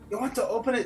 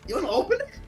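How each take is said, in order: First: It is spoken in another character's voice. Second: It is spoken in the intended character's voice.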